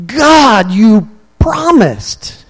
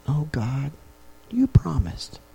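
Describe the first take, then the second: First: Higher, louder, slow anguished cry; a desperate yell to God; screaming. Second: Soft, hushed prayer; a quiet, pleading prayer; quiet plea. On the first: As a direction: scream it out to the bushes behind the house. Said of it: "screaming it to the bushes". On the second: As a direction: murmur it to God in private. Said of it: "Would it be a quiet". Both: Shown as a demonstration.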